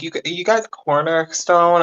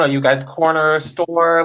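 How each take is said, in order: First: "stone" said slowly with a long o and a nasal n ending; slow, confused "corner stone", stressing "guys"; puzzled question. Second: "store" said slowly, ending on a clear r; slow, confused "corner store", stressing "store"; puzzled question. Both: Retold or imitated. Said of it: "they're gonna think".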